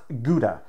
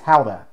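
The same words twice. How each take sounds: First: The word has an English-style pronunciation. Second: The word has a Dutch-style pronunciation. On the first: The speaker calls it wrong. "It is not Gouda" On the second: The speaker calls it right. "That word is Dutch. It is Gouda"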